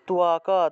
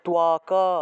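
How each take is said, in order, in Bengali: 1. শব্দটি একটি পূর্ণ স্বরধ্বনিতে শেষ হয়। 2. শব্দটি একটি পূর্ণ স্বরধ্বনিতে শেষ হয়।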